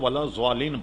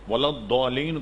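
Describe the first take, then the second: First: The word is said with a z sound. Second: The word is said with a d sound. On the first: The speaker calls it wrong. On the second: The speaker calls it right.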